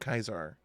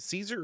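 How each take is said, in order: First: The word begins with a K sound. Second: The word begins with an S sound. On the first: "They pronounce it Kaiser in the games" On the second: "How do you guys pronounce it?"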